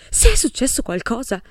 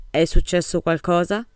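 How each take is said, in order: First: Louder, slightly higher dramatic echo of the question; dramatic repeat. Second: Said in the usual way. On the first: A narrator's reading. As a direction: throw the question back with theatrical weight. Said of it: "ripeté la domanda in modo drammatico".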